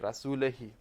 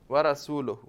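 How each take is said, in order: First: The word ends with the vowel i, rasulihi. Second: The word ends with the vowel u, rasuluhu. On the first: God is free of the idolaters and of his messenger. The speaker calls it wrong. "if you make rasul with kasra, say rasulihi" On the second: God and his messenger are both free of the idolaters. The speaker calls it right. "if you put dhamma as the correct way"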